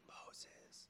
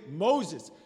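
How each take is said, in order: First: It is said in a whisper. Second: It is said in a full, audible voice.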